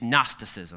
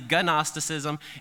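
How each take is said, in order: First: The word starts with an N sound. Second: The word starts with a hard G sound. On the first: The speaker calls it right. "It's got a silent G in the front" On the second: The speaker calls it wrong. "You want to say Gnosticism"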